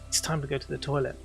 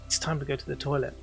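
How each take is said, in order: First: The tone is bored and reluctant. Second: The same.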